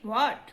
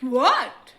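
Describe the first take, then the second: First: It is said softly and calmly. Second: It is said very loudly.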